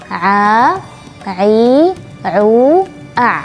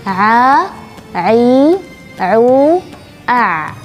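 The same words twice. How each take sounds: Both takes have the same delivery.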